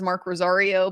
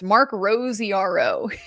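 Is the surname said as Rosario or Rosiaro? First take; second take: Rosario; Rosiaro. First: The surname is pronounced Rosario. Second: The surname is pronounced Rosiaro. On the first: This is the name as written on the ID. The speaker calls it right. "It says Mark Rosario" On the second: This is how someone mispronounced it on the radio. The speaker calls it wrong. "is how he pronounces it on the radio"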